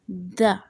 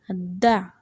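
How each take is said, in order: First: The vowel is a short, weak schwa. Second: The vowel is a short, weak schwa.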